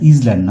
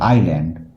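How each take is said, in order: First: The word begins with 'iz', with a z sound. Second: The word begins with 'eye', with no z sound. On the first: The speaker calls it wrong. "উচ্চারণটা ইজল্যান্ড নয়" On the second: The speaker calls it right. "উচ্চারণ হচ্ছে আইল্যান্ড"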